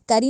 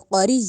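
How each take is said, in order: First: The first consonant sounds light and thin. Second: The first consonant sounds heavy and full. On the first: The speaker calls it wrong. "करी नहीं कहा जाएगा" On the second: The speaker calls it right. "मोटा करके पढ़ना है"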